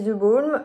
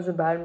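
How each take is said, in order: First: "The Balm" with a rounded O, like "bolm"; French-sounding "The Balm", vowel as in "bol"; unsure pronunciation. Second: "The Balm" with an open A, like "balm"; second try at "The Balm", A not O; alternative pronunciation. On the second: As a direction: correct yourself, "Balm" with an "ah" vowel. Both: Real, not acted. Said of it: "je sais jamais comment on dit".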